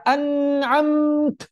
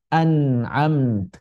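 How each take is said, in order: First: An'amt with the t held long; slow, higher wrong take of an'amt; wrong reading. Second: An'amt with a weak fading t; slow, gentle ending of an'amt; right reading. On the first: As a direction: stretch the end of an'amt too much. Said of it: "Bukan dibaca an'amt". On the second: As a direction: let an'amt die away at the end. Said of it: "tapi an'amt". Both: Shown as a demonstration.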